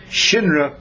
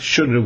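First: The first vowel is an 'i' sound. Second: The first vowel is an 'u' sound. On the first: "or can be pronounced shinra with a yud" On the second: "which can be pronounced shunra with a vav"

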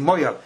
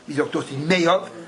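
First: The first syllable sounds like 'moy'. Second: The first syllable sounds like 'may'. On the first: The speaker calls it wrong. "You don't say Moyav" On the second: The speaker calls it right. "especially if you're Litvak"

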